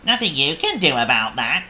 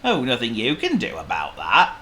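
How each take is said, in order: First: Raised, louder worm voice; worm character. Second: Lightly voiced pig, a little louder; Oink. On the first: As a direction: toss it off as the worm. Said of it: "said the worm". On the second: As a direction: shrug it off as a pig. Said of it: "said Oink". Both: A narrator's reading.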